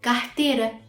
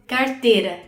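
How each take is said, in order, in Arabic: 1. الراء اللي قبل التاء بتتنطق زي h. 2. الراء اللي قبل التاء راء مطروقة. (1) "اتنطقت ه عادي" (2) "الناس بقى في ساو باولو بينطقوا ... ره"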